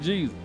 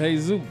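First: The name is said with an English pronunciation. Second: The name is said with a Spanish pronunciation. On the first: This is how outsiders reading the name say it. "when we look at it, we'll call it name Jesus" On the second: This is how the family who gave the name says it. "Mexicans been doing it because they got a little boy, and name it Jesus"

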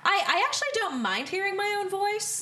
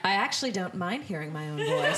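First: It is said in an annoying, put-on voice. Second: It is said in a plain, natural voice. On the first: The speaker calls it wrong. "which I just said in a really annoying voice" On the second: The speaker calls it right. "Let me try that again"

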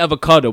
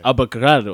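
First: The word is said with an English-style pronunciation. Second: The word is said with an Italian-style pronunciation. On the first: The speaker calls it wrong. "I'm pronouncing it wrong" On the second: The speaker calls it right. "Nice Italian way of saying it"

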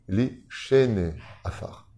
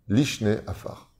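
First: A full 'e' vowel follows the 'sh' sound. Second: The 'sh' runs straight into 'ne' with no vowel. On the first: It means those who sleep in the dust. The speaker calls it right. "Vous avez deux tsérés" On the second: It means the second dust. The speaker calls it wrong. "La majeure partie des gens, même des Chazanim, disent Lishne Afar"

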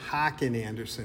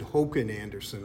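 First: The name is said in a nasal Midwestern accent. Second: The name is said with a Swedish pronunciation. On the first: "that's a nasally Midwestern accent" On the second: "you said Håkan Andersson"

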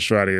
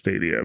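First: An r sound follows the t. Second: No r sound follows the t. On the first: The speaker calls it wrong. "So it's not Stradia" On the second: The speaker calls it right. "it's Stadia"

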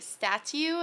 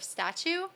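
First: The word has a nonstandard, accented pronunciation. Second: The word has the standard English pronunciation. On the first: This is how a parent with a foreign accent said it. "my mom used to say statue" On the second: This is the usual English pronunciation. "instead of statue"

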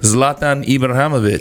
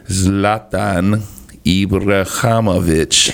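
First: The name is said at normal speed. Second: The name is said more slowly.

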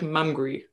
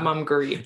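First: The ending sounds like 'hungry', with two syllables. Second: The ending sounds like 'Hungary', with three syllables. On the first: The speaker calls it right. "it's a different word, like Mumgree" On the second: The speaker calls it wrong. "not Mumgree"

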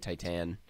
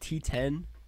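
First: It is said like the English word Titan. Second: It is said with a French pronunciation. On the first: This is the casual anglicized way. "I'm just going to say Titan ... Like Titanic" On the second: This is how the screening's programmer said it. "The programmer at the screening I was at called it T10"

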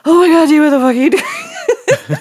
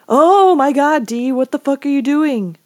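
First: The words run together with a groan. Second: The words are said separately, without a groan.

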